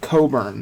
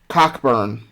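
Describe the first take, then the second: First: No k sound is heard before the b. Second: A k sound is heard before the b. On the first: It is how the family says it. "they pronounce it Coburn" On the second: It follows the spelling. "phonetically pronounced Cockburn"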